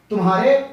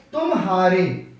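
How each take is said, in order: First: Said in the usual way. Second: तुम्हारे as two parts, तुम + हारे; split at the join. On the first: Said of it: "हम इसको simple बोलेंगे". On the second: Shown as a demonstration. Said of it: "तुम और हारे का संगम".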